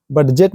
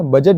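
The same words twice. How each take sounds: First: "बजट" said the wrong way, with the d sounded; the common mistaken "बजट"; wrong pronunciation. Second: "बजट" with silent d, said as bajat; the right way to say "बजट"; correct pronunciation. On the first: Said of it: "बजट नहीं बोलते हैं ना". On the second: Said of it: "बजट बोलते हैं". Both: Shown as a demonstration.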